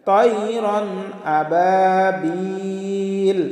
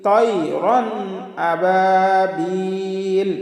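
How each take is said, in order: Both takes have the same delivery.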